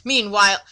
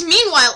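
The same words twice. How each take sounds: First: Said in the usual way. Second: "meanwhile" higher and louder with a falling tune; imitating how she says "meanwhile", higher with a fall; mocking her "meanwhile". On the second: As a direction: parrot her dramatic "meanwhile". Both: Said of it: "she says "meanwhile" a fucking lot".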